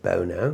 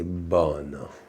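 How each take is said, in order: First: The name is said with a British pronunciation. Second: The name is said with an Italian pronunciation. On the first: The speaker dislikes being called this. The speaker calls it wrong. "Across the water there, I'm called [name], which I don't love" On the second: The speaker enjoys being called this. The speaker calls it right. "in Italy, they say Bono, and that makes me feel very good"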